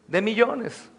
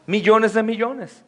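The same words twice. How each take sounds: First: Said in the usual way. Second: "Millones de millones" drawn out slowly, each "millones" weighted; slow emphatic repeat. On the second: Real, not acted. Preacher to the congregation, repeating "millones" slowly and weighted.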